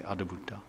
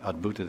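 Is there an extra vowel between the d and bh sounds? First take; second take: yes; no. First: An extra vowel separates the d and bh sounds. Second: The d and bh sounds run together directly. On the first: This is how Bengali speakers say the word. "this is a Bengali, they say Adabhuta" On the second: This is the usual form of the word. "instead of saying Adbhuta"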